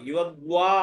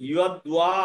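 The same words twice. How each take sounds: The two takes are said the same way.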